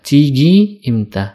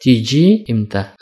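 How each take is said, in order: First: The first word has a hard g sound. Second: The first word has a j sound. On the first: This is how it is said in Cairo. "kalau di Kairo ini biasa diucapkan dengan kata tigi imta" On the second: This is how it is said in Egypt generally. "orang Mesir biasa mengatakan tiji imta"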